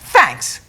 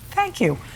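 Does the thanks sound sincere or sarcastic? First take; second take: sarcastic; sincere. First: It sounds snide and sarcastic. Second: It sounds genuinely grateful and sincere.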